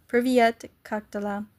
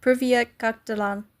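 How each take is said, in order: Both takes have the same delivery.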